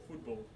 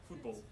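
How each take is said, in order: No difference in how they are said.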